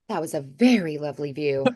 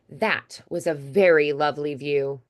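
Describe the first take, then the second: First: The words run together and the T is dropped. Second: Each word is clearly articulated with small gaps. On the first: The setting is a relaxed chat with a friend. "a more casual way of doing that" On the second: The setting is a formal office meeting. "a little more space between words, more diction, articulating very clearly"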